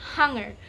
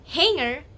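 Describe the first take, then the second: First: The vowel is a plain Filipino a sound. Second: The vowel is said with an American accent. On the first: "we say" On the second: "you say"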